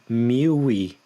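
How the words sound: The two words merge into one sound. The speaker calls it right. "say mil e"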